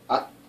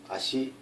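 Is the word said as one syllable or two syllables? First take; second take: one syllable; two syllables. First: The word is said as one clipped syllable. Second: The word is said as two full syllables. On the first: "응집 발음" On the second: "연진 발음"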